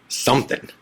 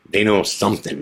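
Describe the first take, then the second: First: An ominous unvoiced whisper on the last word. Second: Said in the usual way. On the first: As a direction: lean in and breathe the word Something. Warning friend before questioning.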